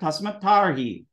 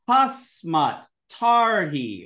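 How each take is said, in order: First: The words run together with the Ts merged. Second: The two words are said apart, each T separate.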